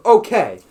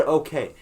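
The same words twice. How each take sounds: First: Loud, raised one-word retort; yelling back. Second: Said in the usual way. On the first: Retold or imitated. Student yells back at the principal, raised voice. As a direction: throw it back at him loudly. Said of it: "I yell back at him".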